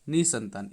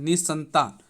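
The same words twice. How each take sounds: First: निसंतान said as "ni-santaan", a single s; simple form. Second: निसंतान as "निस्संतान", the s held; visarga form. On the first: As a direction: go straight from नि to संतान, no held s. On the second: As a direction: lean on the s in निसंतान, nis-santaan. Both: Shown as a demonstration. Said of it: "इस तरह से लिखेंगे".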